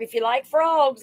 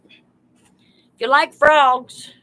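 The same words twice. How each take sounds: First: Said in the usual way. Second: Drawn-out excited call. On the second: Real, not acted. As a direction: stretch it out slowly and loudly. Calling out to live viewers.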